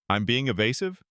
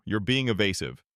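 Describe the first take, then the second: First: Rising, disbelieving throw-back of being; mild mock astonishment; incredulous echo. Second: Said in the usual way. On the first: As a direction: repeat the charge back in disbelief. Mitchell throws accusation back.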